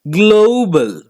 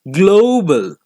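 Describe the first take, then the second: First: The first vowel glides from O toward oo. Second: The same.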